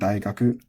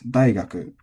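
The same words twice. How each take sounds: First: The pitch is low on the first syllable. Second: The pitch is high on the first syllable. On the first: This is the established accurate accent. "for accuracy reasons, you probably stick to saying" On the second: This is a newer way some natives say it. "developing an atamataka or head-high accent"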